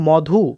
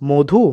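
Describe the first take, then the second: First: The first vowel is an open 'aw' sound. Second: The first vowel is a closed 'o' sound. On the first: This is how the spelling suggests it. "হওয়ার কথা" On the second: This is how people actually say it. "ওকারের মতো"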